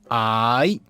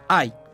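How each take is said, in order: First: Said with the tone that means short person. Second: Said with the tone that means love. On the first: It refers to a short person. "Persona de baja estatura" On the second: It means love.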